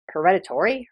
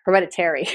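First: HEREDITARY with a -TORY ending, questioning; mispronounced. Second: HEREDITARY with a clear -TERRY ending; corrected pronunciation. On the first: Host checking her own slip, mispronounced Hereditary. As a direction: query the slip, saying Hereditary as "he-RED-i-tory". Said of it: "I said factors and hereditary". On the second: Host correcting herself, Hereditary pronounced properly. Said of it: "I was speaking kind of fast". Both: Shown as a demonstration.

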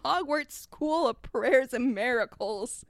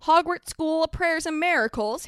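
First: Slow, stately reveal; grand announcement. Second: Higher-pitched wondering question; little boy asking, pitched up; child's query. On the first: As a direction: draw out the name grandly. Hagrid solemnly announces the school's name. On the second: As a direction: repeat it as an awed question. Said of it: "Harry queried and clasped his hands". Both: Acted.

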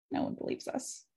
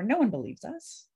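First: Soft whispered echo. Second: Said in the usual way. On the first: Shown as a demonstration. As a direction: drop to an unvoiced whisper. Repeats the line, then whispers it.

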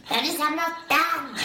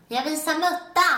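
First: High, slow mock yell, dripping wet; retold scream. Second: High, slow mock yell of embarrassment; retold scream. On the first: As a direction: yell it again as you did back then. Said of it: "tittar jag upp så här helt blöt och så bara". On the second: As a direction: shout it out, half laughing at yourself. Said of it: "så skriker jag".

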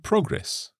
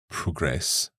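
First: "progress" stressed on the first syllable, slowly; noun stress. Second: "progress" stressed on the second syllable, slowly; verb stress. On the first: Teacher recalling the verb and noun pattern, "progress" stressed up front. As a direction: say "progress" slowly as PRO-gress. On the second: Teacher recalling the verb and noun pattern, "progress" stressed at the end. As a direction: say "progress" slowly as pro-GRESS. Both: Shown as a demonstration. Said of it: "the stress changes".

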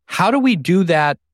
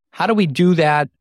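The two takes are said the same way.

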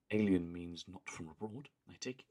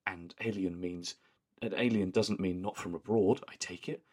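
First: Lightly imitating a calm posh deadpan; Joan's flat deadpan. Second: Lightly voiced prim deadpan line; a hint of Joan's flat posh tone; imitating Joan's deadpan. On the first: Imitating how Joan says it to the boys' teacher, mild deadpan. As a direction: say it matter-of-fact, a hint of posh. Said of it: "whereas she's just like". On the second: Friend imitates Joan's line, a touch of posh deadpan. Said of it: "just the way that she says it".

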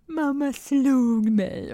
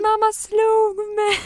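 First: Put-on slow, higher pouty child voice; accusing toddler. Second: Put-on slow, much higher, louder child wail; wailing toddler. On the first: Toddler accusing mother, slow and higher. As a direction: draw it out like a sulking kid. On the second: Toddler loudly accusing mother in public, high slow wail. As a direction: stretch it out like a kid making a scene.

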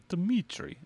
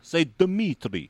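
First: Slow Russian accent with a heavy tongue; Russian accent, tongue swollen and thick. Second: Slow Russian accent with a heavy tongue; Russian accent, tongue feels too fat. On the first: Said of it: "your tongue's heavy". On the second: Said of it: "in order to do a Russian accent". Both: Shown as a demonstration.

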